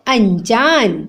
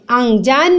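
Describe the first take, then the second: First: "अनजान" as an-jaan; correct pronunciation. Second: "अनजान" as ang-jaan; nasal ng before j in "अनजान"; wrong pronunciation. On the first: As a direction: clean n before j in "अनजान". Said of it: "क्या होता है". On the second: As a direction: back ng sound in "अनजान". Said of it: "नहीं होता". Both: Shown as a demonstration.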